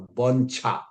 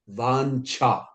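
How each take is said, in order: First: The first vowel is short. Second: The first vowel is long. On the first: The speaker calls it wrong. "We do mistake in pronouncing the first word" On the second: The speaker calls it right. "It should be Ba long a cha also long"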